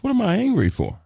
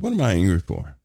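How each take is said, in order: First: Questioning self. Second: Said in the usual way. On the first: Retold or imitated. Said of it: "you'll say to yourself". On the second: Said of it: "I said".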